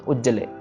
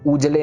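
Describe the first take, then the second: First: The middle consonant is held and doubled. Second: The middle consonant is short and single. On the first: The speaker calls it right. "इसको थोड़ा सा भार देके या कम छोटी छोटी साउंड देके पढ़ना है" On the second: The speaker calls it wrong. "उजले नहीं कहना"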